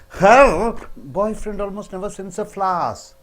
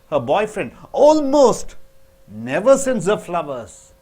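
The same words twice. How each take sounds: First: The word her is stressed. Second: The word almost is stressed. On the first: Another woman's boyfriend does send flowers. "but my boyfriend sends" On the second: He does send them once in a while.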